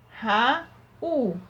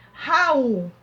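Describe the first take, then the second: First: "Raul" split in two, Ra, then U; sounded-out "Raul", each syllable alone. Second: Said in the usual way. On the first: Shown as a demonstration. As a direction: break "Raul" with a pause before the final U. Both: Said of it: "final de uma sílaba".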